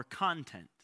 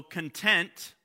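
First: Content with the stress on CON, falling away; stress on first syllable. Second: Content with the stress on TENT, louder; stress on second syllable. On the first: Preacher showing two words spelled alike, content stressed on CON. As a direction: say content as CON-tent, like what is inside. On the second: Preacher showing two words spelled alike, content stressed on TENT. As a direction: say content as con-TENT, the satisfied word. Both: Shown as a demonstration. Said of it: "where you put the emphasis".

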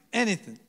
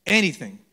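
First: "Anything." in a quick New Jersey accent. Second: Said in the usual way. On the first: Shown as a demonstration. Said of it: "Can you say it with a New Jersey accent?".

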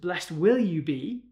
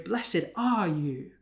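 First: Said in the usual way. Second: Slow "blessed are you" with "are" leaned on and drawn out; preacher stretching "are" slowly to stress the present tense. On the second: Shown as a demonstration. Preacher to congregation, slow weight on "are". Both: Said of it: "They're present tense things".

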